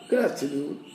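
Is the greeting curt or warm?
warm. The greeting sounds warm and respectful. The person is showing respect. "it's the tone that counts"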